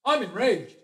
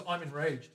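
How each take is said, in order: First: A hint of playful mock rage on "I'm enraged", higher and louder; mock enraged mantra. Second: Said in the usual way. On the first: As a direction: toss out "I'm enraged" like a jokey battle cry. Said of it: "That's his mantra now". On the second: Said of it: "We need a t-shirt that says".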